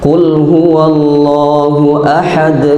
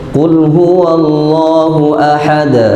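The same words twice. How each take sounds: First: The final d is bounced with no vowel after. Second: The final d is followed by an a vowel. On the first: The speaker calls it right. "tinggal dimantulkan selesai" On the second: The speaker calls it wrong. "itu kan fathah"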